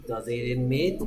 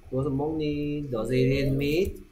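First: Said in the usual way. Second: Each word drawn out slowly for the class; slow model question. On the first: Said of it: "그거 고기 먹니?". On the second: Shown as a demonstration. Teacher modelling the question slowly for students, rising on "meat". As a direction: spell out "Does it eat meat?" very slowly, rising on "meat".

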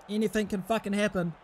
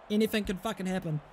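Both takes have the same delivery.

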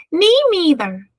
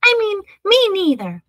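First: High, squeaky-small mouse muddling its words; tiny high mouse voice, first sounds swapped; tiny little voice. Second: High little mouse correcting its muddled words; tiny, much higher voice, sounds now in order. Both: A narrator's reading. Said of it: "said a tiny little voice".

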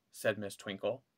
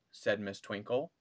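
The two takes are said the same way.

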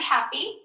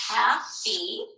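First: Said in the usual way. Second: "Happy" in two separate beats, hap, pee; split into syllables. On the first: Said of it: "here's my word happy". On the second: Shown as a demonstration. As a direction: sound out "Happy" with a gap between syllables. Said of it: "how do we split up those syllables".

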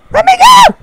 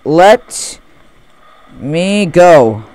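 First: High, loud creepy ghost cry; creepy old man. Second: Said in the usual way. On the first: Acted. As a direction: wail it like a haunted old man. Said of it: "Creepy old man". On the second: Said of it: "it says".

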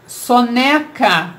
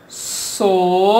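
First: Said in the usual way. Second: "Soneca" split as so... ne... ca; slow teacher's breakdown of "Soneca" into three pieces; syllable by syllable. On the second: Shown as a demonstration. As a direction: hold each syllable of "Soneca" with a pause after. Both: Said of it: "Vamos separar em sílabas".

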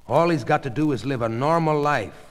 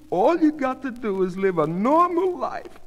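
First: Plain, slightly raised advice; matter-of-fact doctor. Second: High-pitched, insistent reassurance; coaxing wife. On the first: Doctor advising the wife on recovery, matter-of-fact. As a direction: give brisk reassurance near the usual voice. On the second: Goldie repeating the doctor's advice to her husband, coaxing. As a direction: echo the advice eagerly, pitched well up. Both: A narrator's reading.

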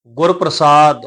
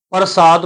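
First: ਗੁਰ ਪ੍ਰਸਾਦ with pr blended as prasaad; touch the r lightly in ਗੁਰ ਪ੍ਰਸਾਦ, long saad; light half-r. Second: ਪ੍ਰਸਾਦ opened up as pa-ra-saad; full-r misreading. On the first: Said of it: "ਉਚਾਰਨ ਥੋੜ੍ਹਾ ਜਿਹਾ ਹਲਕਾ ਹੋ ਜਾਏਗਾ". (ਗੁਰ ਪ੍ਰਸਾਦ ਵਿੱਚ ਅੱਧਾ ਰਾਰਾ ਹਲਕਾ) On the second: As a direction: give the r in ਪ੍ਰਸਾਦ a full syllable. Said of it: "ਪ੍ਰਸਾਦ ਪੂਰਾ ਨਹੀਂ ਪੜਾਂਗੇ". (ਪ੍ਰਸਾਦ ਵਿੱਚ ਰਾਰਾ ਪੂਰਾ ਬੋਲੋ) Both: Shown as a demonstration.

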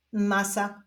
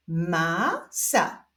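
First: Said in the usual way. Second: Stretched first syllable, pause, then second; drawn-out, divided syllables; syllable reading. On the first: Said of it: "połączenia tych dwóch sylab wyjdzie nam wyraz". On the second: Shown as a demonstration. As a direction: read it slowly as two separate syllables. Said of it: "doczytujemy sylabę różową".

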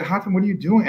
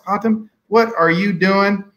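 First: Said in the usual way. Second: Slow, stretched Southern US drawl, pitched higher. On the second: Retold or imitated. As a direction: imitate the Texan pitmaster in a slowed Southern US drawl. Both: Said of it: "this is my Southern drawl".

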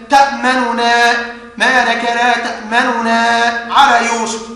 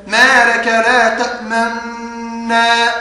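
First: Both noons in تأمننا pronounced separately; measured reading, ta'-ma-nu-na in تأمننا; izhar of noon. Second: Slow recitation, long held noon in تأمنا; idgham reading. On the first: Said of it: "وجب إظهار النون فنقرأه هكذا". (إظهار النون الأولى في تأمننا) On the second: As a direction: merge the noons of تأمنا into one drawn-out hum. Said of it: "رواها عن شيخه بالإضغام فيقرأه هكذا". (إدغام بغنّة طويلة في تأمنا) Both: Shown as a demonstration.

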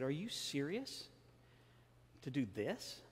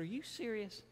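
First: Said in the usual way. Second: High-pitched disbelieving question; incredulous. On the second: Retold or imitated. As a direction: ask it in sheer disbelief. Patient asks again, incredulous.

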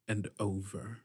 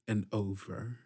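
The two takes are said the same way.

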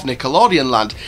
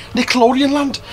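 First: Said in the usual way. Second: Nickelodeon Land in a hammed-up, higher Scouse accent; bad Liverpool Scouse impression. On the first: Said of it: "as I like to pronounce it". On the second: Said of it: "in that terrible Scouse accent".

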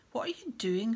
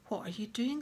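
First: Loud, accusing question; suspicious snarl. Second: Mild, curious question; friendly inquiry. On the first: Caretaker catching a boy alone, suspicious snarl. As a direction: pounce on him with suspicion. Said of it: "Filch snarled suspiciously". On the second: Professor greeting boy in corridor, gentle and curious. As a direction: ask with kindly interest, no accusation. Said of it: "in a very different voice from Filch". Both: A narrator's reading.

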